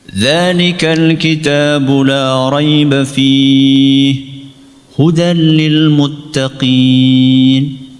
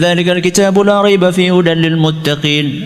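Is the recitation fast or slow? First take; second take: slow; fast. First: It is recited at a slow pace. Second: It is recited at a fast pace. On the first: "pelan itu contohnya" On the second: "Itu namanya cepat"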